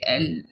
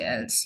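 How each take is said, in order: First: The final consonant is silent. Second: The final consonant is pronounced. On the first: The speaker calls it right. "The last consonant is usually silent" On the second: The speaker calls it wrong. "You don't say else"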